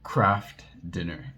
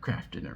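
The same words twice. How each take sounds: First: The phrase is broken up by stuttering. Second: The phrase is said smoothly without stuttering. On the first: The speaker was anxious in front of others. "it came out like Craft Dinner" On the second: The speaker is alone and relaxed. "I wouldn't stutter one time in a room by myself"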